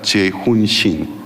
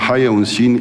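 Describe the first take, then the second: First: The first name begins with a ch sound. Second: The first name begins with an h sound. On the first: This is the name's real Korean pronunciation. The speaker calls it right. "en realidad" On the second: This is how Spanish speakers read the name. The speaker calls it wrong. "en español por la pronunciación castellano suena"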